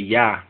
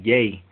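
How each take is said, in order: First: The vowel is a short 'ah' sound. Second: The vowel is a long 'ay' sound.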